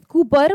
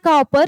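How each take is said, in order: First: The first vowel sounds like in 'coop'. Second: The first vowel sounds like in 'cop'. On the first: The speaker calls it right. "वो कूपर pronounce किया जाता है" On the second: The speaker calls it wrong. "It's not कॉपर"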